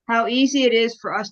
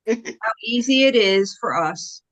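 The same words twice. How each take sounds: First: It is said at normal speed. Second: It is said slowly.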